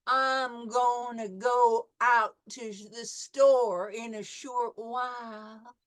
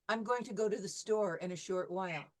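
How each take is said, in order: First: It is said slowly in a Southern accent. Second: It is said in the speaker's neutral accent.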